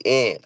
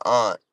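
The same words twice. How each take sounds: First: "aunt" said as ant, short A; "aunt" with the vowel of cat; rejected pronunciation. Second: "aunt" with a broad open AH; "aunt" said as ahnt; own pronunciation. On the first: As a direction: say "aunt" like the insect. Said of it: "I don't say aunt". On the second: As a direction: say "aunt" rhyming with want. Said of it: "I would never call my aunt". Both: Shown as a demonstration.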